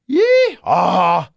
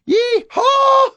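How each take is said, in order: First: It is said in a lower, braying voice. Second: It is said in a higher, greeting voice. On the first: It imitates a donkey. "That's a donkey" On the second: It is a cowboy's greeting. "That's a cowpoke"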